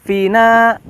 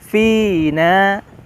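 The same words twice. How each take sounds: First: One of the two vowels is cut short. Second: Both vowels are held long, two beats each. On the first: The speaker calls it wrong. "hati-hati panjang pendeknya tertukar. Bukan fina" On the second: The speaker calls it right. "Fi-nya panjang dua harokat, na-nya panjang dua harokat"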